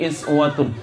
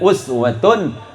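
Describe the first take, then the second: First: The word begins with an 'i' vowel. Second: The word begins with an 'u' vowel. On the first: This is one of the seven accepted readings. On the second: This is the common reading.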